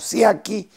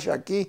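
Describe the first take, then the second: First: The name begins with a plain 's' sound. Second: The name begins with an 'sh' sound. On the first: This is how Spanish speakers say it. The speaker calls it wrong. "se pronuncia como Siaki en el español" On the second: This is the family's original pronunciation. The speaker calls it right. "la verdadera pronunciación era Shaki"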